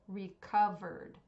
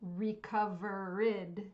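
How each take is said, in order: First: It has three syllables, ending in a D sound. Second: It has four syllables, with an extra final syllable. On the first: The speaker calls it right. "It's recovered with just a D sound at the end" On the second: The speaker calls it wrong.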